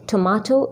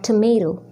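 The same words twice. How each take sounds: First: It is said with a British accent. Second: It is said with an American accent. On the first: "in U K" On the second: "in U S"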